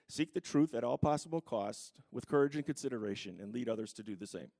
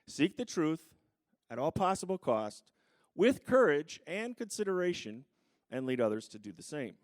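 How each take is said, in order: First: The sentence is spoken at a normal, quicker pace. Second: The sentence is spoken at a slower pace.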